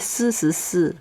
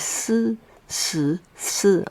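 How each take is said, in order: First: It is said quickly. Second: It is said lower and more slowly. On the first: "if you say it faster" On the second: "if you say it lower"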